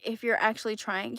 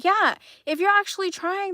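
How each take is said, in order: First: Said in the usual way. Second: Higher, louder, stressing "actually"; emphatic repeat leaning on "actually". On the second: Real, not acted. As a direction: press hard on "actually".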